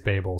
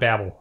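First: The first syllable sounds like 'bay'. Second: The first syllable does not sound like 'bay'. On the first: The speaker calls it right. "but it is Babel" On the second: The speaker calls it wrong. "it's not Babel"

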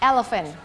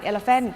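First: The first syllable is clearly stressed. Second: No syllable is stressed; all are even. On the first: The speaker calls it right. "จะต้องเน้นที่พยางค์แรก" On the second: The speaker calls it wrong. "ไม่ได้เน้นพยางค์ไหนเลย"

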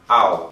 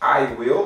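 First: It is said as one contracted syllable. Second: It is said as two full words. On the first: "na forma abreviada" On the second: "I will vai ficar I'll"

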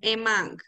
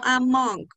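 First: The first vowel sounds like Spanish 'e'. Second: The first vowel does not sound like 'e'. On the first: The speaker calls it right. "Es como con una E" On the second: The speaker calls it wrong. "No Among"

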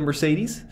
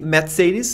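First: It is said the English way. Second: It is said the German way. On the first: "instead of Mercedes" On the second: "Shouldn't it be Mercedes"

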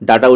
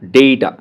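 First: The first vowel sounds like 'ah'. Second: The first vowel sounds like 'ay'. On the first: The speaker calls it wrong. "ডাটা উচ্চারণটা ভুল" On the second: The speaker calls it right. "এটা হচ্ছে উচ্চারণটা ডেটা, ডেইটা"

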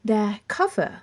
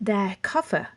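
Both takes have the same delivery.

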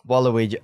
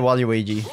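First: The word is said without an extra Y sound. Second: The word is said with an extra Y sound. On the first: "I was trying it your way" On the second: "I usually say Waluigi. / Where does the Y come from?"

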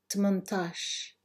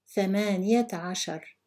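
First: It is said in a short, contracted form. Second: It is said in the full, long form. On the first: This is the everyday dialect form. "then say it in Algerian Arabic" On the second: This is the formal standard form. "I will read each number in Fusha Arabic"

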